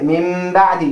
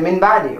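First: The first word ends with an m sound. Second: The first word ends with an n sound. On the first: The speaker calls it right. "you say min ba'di" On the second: The speaker calls it wrong. "you don't say min ba'di"

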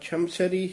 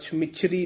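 First: No vowel comes between the m and chh sounds. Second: A short i vowel comes between the m and chh. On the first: The speaker calls it right. "ਛਮਛਰੀ ਹੀ ਪਾਠ ਉਚਾਰਨ ਕਰਨਾ" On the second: The speaker calls it wrong. "ਪੋਲਾ ਛਮਿਛਰੀ ਨਹੀਂ ਕਹਿਣਾ"

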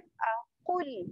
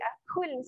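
First: The q sound is heavy and thick. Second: The q sound is light and thin. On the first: The speaker calls it right. "kena tebal. Aqul tekan dekat pangkal lidah" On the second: The speaker calls it wrong. "tak boleh aqul saja"

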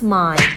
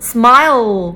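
First: Some of the word's sounds are not fully pronounced. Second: Every sound of the word is fully pronounced. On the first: The speaker calls it wrong. "คนทั่วไปที่ไม่ได้เรียนฟอนิกส์ก็จะอ่านว่า" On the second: The speaker calls it right. "เด็กฟอนิกส์เขาจะเก็บหน่วยเสียงย่อยได้ครบ"

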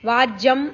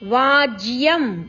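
First: The syllable 'va' is unstressed and short. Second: The syllable 'va' is stressed and long. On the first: The speaker calls it wrong. "ವಾಜ್ಯಂ ಅಲ್ಲ" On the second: The speaker calls it right. "ವಾ ದೀರ್ಘ ವಾ ಅಕ್ಷರದ ಮೇಲೆ ಆಘಾತ ಇದೆ"

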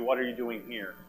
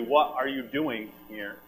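First: The stress is on "here". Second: The stress is on "doing".

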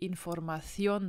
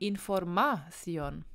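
First: The stress is on the last syllable. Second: The stress is on the second-to-last syllable. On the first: The speaker calls it right. "dass wir Información sagen" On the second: The speaker calls it wrong. "denn das wäre die vorletzte Silbe"

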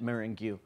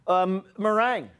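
First: It is sounded out the way it is spelled. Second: It is said with the usual pronunciation.

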